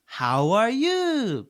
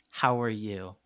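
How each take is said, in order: First: Put-on very slow, high, loud Japanese-accented English; exaggerated Japanese accent. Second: Said in the usual way. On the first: Teacher showing what the kid understands, exaggerated Japanese accent. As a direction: drag it out in a hammed-up Japanese accent. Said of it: "you have to exaggerate it a lot". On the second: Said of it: "But he doesn't understand".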